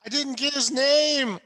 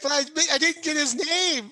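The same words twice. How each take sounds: First: High, loud comic whine; plaintive protest. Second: Very high, loud plaintive protest; disappointed. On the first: Player as wounded hero to his rescuer, plaintive protest. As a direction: wail it as a mock complaint. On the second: Player as hero upset his attacker died nameless, disappointed. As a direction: whine it high, like a let-down hero. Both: Acted.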